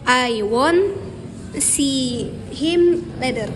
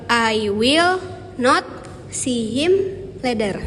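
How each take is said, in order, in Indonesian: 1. Will dan not menyatu menjadi satu kata, won't. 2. Will dan not diucapkan sebagai dua kata.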